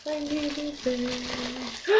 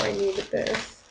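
First: Much softer and very slow, drawn out; soft heartfelt repeat. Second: Said in the usual way. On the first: Real, not acted. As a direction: let it sink in, almost to yourself. Grateful unboxing, repeated softly.

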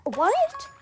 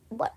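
First: Much higher and louder what; mock disbelief, rising; outraged what. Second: Said in the usual way. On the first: Narrator offended by the friend, loud disbelief. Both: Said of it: "I'm like".

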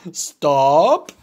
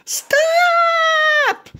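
First: Gerald voice. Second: High little pig shout; Piggy yelling at the spinning Gerald, high shout. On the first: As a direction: lower big elephant voice. Gerald echoes. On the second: Piggy yells stop. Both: Acted.

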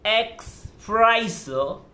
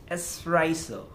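First: "espresso" said wrongly as "ex-PRESS-o"; mispronounced espresso. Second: "espresso" with a clean S, "es-PRESS-o"; correct espresso. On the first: Teacher mimicking a student's slip, "espresso" mispronounced with an X. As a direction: put a K sound into "espresso": "eks-presso". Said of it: "it shouldn't be X". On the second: Teacher correcting a student, "espresso" pronounced with S, not X. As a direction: say "espresso" with no K sound, "ess-presso". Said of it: "It should be espresso". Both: Shown as a demonstration.

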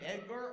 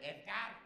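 First: Said in the usual way. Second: "Edgar" said as "Eth-gard"; "Edgar" with a lisped TH and a full "ar". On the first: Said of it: "Is it Edgar or is it". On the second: Shown as a demonstration. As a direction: put a TH in place of the D in "Edgar". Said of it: "With a T H".

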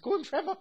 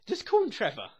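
First: "Just call him Trevor" squeaked high through a laugh; laughing high repeat. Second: Said in the usual way. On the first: Shown as a demonstration. Joking to viewers about Trevor, laughing and high. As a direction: giggle it out in a much higher voice.

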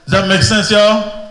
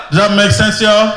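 The two takes are said the same way.

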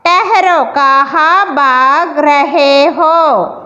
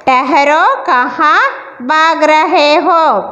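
First: Slow, mild mock scolding as the lion; lightly voiced lion scolding the animals. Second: Said in the usual way. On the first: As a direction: drag it out like a lion telling off the animals. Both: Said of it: "शेर ने डांटते हुए कहा".

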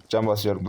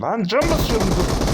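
First: Said in the usual way. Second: High, much louder frantic cry; panicked shout. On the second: Real, not acted. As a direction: yell it in panic while healing. (panikle yüksek sesle bağırarak)

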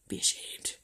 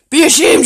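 First: Very soft, voiceless reproach; hushed shaming whisper; whispered scolding. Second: Loud, high shaming of the dog; sharp, high telling-off; loud scolding. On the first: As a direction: whisper it at the dog to shame it. Whispered take of scolding the dog. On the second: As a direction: raise your voice and shame the dog. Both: Real, not acted.

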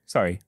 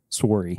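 First: Said in the usual way. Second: Canadian "Sorry" with a rounded "sore" vowel; Canadian accent. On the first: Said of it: "You gotta say you're sorry". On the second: Shown as a demonstration. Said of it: "Yeah, the accent".

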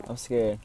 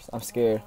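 No difference in how they are said.

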